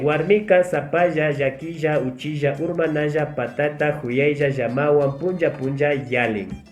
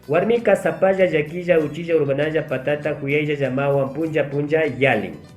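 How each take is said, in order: First: It is spoken at normal speed. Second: It is spoken as fast as possible. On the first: "Vamos a decir ahora de forma normal" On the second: "voy a tratar de leer lo más rápido posible"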